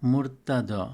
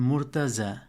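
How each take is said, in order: First: The consonant after 't' sounds like 'd'. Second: The consonant after 't' sounds like 'j'. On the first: This is the Arabic form. "এটি আরবিতে হয় মুরতাদ" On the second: This is the commonly heard local form. "আপনি হয়তো শুনেছেন মুরতাজা"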